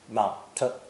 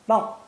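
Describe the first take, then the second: First: The final T is released with a puff. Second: The final T is held without release. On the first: The speaker calls it wrong. "Don't say mount t" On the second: The speaker calls it right. "Say mount, mount, mount, and stop your tongue behind your teeth"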